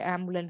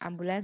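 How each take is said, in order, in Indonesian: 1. Kata ini berakhir tanpa bunyi s. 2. Kata ini berakhir dengan bunyi s. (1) "Tidak ambulan biasa" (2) "ambulans menggunakan S"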